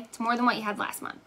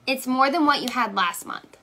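First: Quick repeat to herself, as a reminder. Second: Said in the usual way. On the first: Real, not acted. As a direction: rattle it off as a self-reminder. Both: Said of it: "That's what I keep telling myself".

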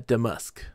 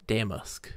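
First: Da-MASK, weight on the end; damask, back-stressed; damask stressed on second syllable. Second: DAM-ask, weight on the front; damask, front-stressed; damask stressed on first syllable. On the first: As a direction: say damask with a light first syllable. Trying out two pronunciations of damask. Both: Shown as a demonstration.

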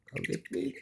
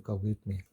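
First: High, soft chiding; pet-talk voice. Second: Said in the usual way. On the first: Real, not acted. Owner telling pets not to fight, high cooing. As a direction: chide gently in a raised little voice.

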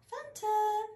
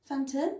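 First: High, sing-song call of the cat's name; "Phantom" sung up high to coax the cat; sing-song pet call. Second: Said in the usual way. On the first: Real, not acted.

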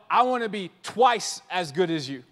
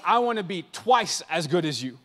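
First: A hint of a cocky star; imitating LeBron. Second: Chuckling through "but I wanna be twice as good as you"; laughing impression. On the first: LeBron boasting about being twice as good, lightly voiced. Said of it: "LeBron going like". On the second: Steph Curry boasting to Michael Jordan, laughing. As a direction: say it with a laugh, half teasing. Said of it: "Michael Jordan and be like".

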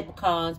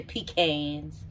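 First: "pecans" said puh-KAHNZ, stress on the second syllable; her own pecans. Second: "pecans" said PEE-cans, long ee then a flat a; how other people say it. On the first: Shown as a demonstration. Cook telling viewers how she says it: "pecans" as puh-KAHNZ. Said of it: "I'm from the country, so I say pecan". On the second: Retold or imitated. Cook showing viewers the other way to say it: "pecans" as PEE-kanz. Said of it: "people say pecans".

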